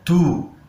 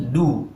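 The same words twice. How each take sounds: First: The d is said with a puff of air. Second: The d is said without a puff of air. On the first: The speaker calls it wrong. "dibaca dengan angin atau hamas" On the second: The speaker calls it right. "Tidak boleh pakai angin ya"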